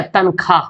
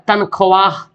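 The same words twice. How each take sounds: First: तनख्वाह said "tan-khaa", no "w"; as spoken. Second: तनख्वाह with "w" and final "h" sounded, "tan-kho-waah"; as written. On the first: Teacher showing everyday speech, तनख्वाह as "tan-khaa". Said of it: "और आप बोलते क्या". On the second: Teacher reading out the spelling, तनख्वाह as "tan-kho-waah". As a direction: sound every letter of तनख्वाह. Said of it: "लिखा हुआ क्या". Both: Shown as a demonstration.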